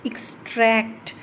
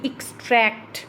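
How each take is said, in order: First: The stress is on the second syllable. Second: The same.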